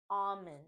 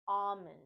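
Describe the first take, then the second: No difference in how they are said.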